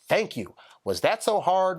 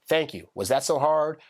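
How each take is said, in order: First: It is read with pointed, expressive inflection. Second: It is read flat, without any inflection.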